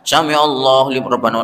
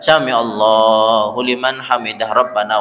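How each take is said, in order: First: It is rushed with no pause before Rabbana. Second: It is unhurried with a pause before Rabbana. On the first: The congregation struggles to keep up. The speaker calls it wrong. "Mesake makmume sing tuwa" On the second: The congregation can follow comfortably. The speaker calls it right. "yo dikasih jeda"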